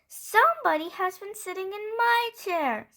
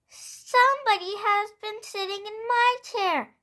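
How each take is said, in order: First: It is said in a middle-sized voice. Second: It is said in a wee little voice.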